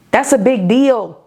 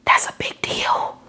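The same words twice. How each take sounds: First: Said out strong and firm; full voice. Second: Hushed whisper of awe. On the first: Preacher declares it firmly to her listeners. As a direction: land it firmly after the whisper. Repeats line, now aloud. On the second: Preacher whispers to her listeners in awe. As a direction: breathe it out in a whisper. Repeats line, first whispered. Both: Acted.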